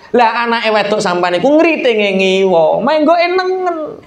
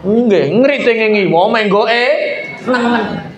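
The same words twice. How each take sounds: First: Mocking explanation. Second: Slow, mocking repeat in a put-on voice; mocking imitation. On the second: Man from Gresik mockingly repeating the signal complaint, slow. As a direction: drag the words out to mock the rider.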